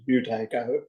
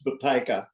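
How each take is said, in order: First: The name is said with an English pronunciation. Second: The name is said with a Russian pronunciation. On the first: "the anglicised version is Buteyko" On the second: "in Russian, it's Buteyko"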